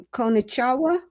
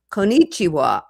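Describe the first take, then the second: First: Konnichiwa? with a rising question tune; konnichiwa? tried out, unsure; wrong inflection. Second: Konnichiwa. with a settled falling tune; konnichiwa. said with a confident fall; right inflection. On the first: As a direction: ask konnichiwa? as a tentative guess. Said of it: "I don't have the inflection right". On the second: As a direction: land konnichiwa. firmly at the end. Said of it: "I think that's how to do it". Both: Shown as a demonstration.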